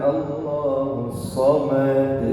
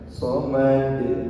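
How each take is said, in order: First: The vowel before the final consonant is drawn out. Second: The vowel before the final consonant is short. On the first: The speaker calls it wrong. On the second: The speaker calls it right.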